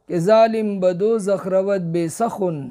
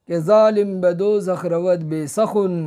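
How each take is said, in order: Both takes have the same delivery.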